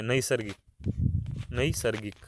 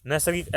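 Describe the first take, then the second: First: नैसर्गिक with the first vowel opened into a clear "a-i" glide; stressed AI vowel. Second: नैसर्गिक with one plain "e" vowel first; everyday pronunciation naisargik. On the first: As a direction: say नैसर्गिक as "na-i-sar-gik". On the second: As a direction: say नैसर्गिक as "ne-sar-gik". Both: Shown as a demonstration. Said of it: "इसमें ऐ होता है".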